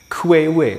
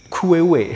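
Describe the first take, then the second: First: The word is said with several syllables. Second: The word is said with several syllables.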